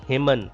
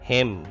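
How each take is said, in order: First: The final N sound is pronounced. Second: The final N sound is silent. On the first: The speaker calls it wrong. "It is not himan" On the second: The speaker calls it right. "N is silent here"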